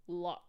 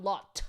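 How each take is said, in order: First: "Lot" ending without an audible T; no T sound. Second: "lot" with a crisp, audible T at the end; released final T. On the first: Answering chat on a French name, "Lot" with no T. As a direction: say "Lot" open-ended, no released T. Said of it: "you think it's an unaspirated T". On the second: Showing chat the wrong way, "lot" with a sounded T. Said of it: "like, not lot". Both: Shown as a demonstration.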